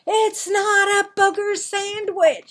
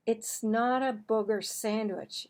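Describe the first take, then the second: First: High, loud exasperated yell; angry shout. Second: Said in the usual way. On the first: Acted. Marvin shouts back at the mocking kids, high and loud. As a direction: shout it, fed up. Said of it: "shouted Marvin". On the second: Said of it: "he said".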